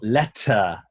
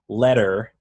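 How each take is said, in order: First: The middle t has a strong puff of air. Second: The middle t is a soft American flap. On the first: "Here we want letter" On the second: "if we were American and we're saying like letter"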